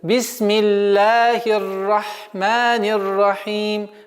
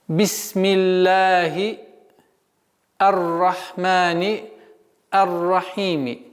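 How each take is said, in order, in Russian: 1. Последнее слово заканчивается без своей последней гласной. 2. Последнее слово заканчивается на краткий гласный.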